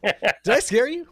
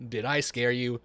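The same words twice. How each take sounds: First: High, slow spooky tease. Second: Said in the usual way. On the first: Shown as a demonstration. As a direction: ham it up like a ghost story. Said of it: "You started something. You have to finish it now". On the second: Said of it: "You started something".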